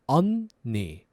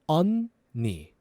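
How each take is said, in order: No difference in how they are said.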